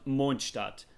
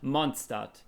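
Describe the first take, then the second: First: It is said with a German pronunciation. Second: It is said with another non-German pronunciation. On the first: The speaker calls it right. "it's called Mondstadt ... I'm a native German and I know how to pronounce it" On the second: The speaker calls it wrong. "and not Mondstadt"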